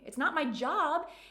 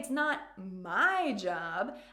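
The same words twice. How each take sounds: First: The word job carries the main stress. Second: The word my carries the main stress. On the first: The speaker does it for fun, not work. "it's just pure fun and pleasure for me" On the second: The task belongs to someone else. "I mean that it might be your job"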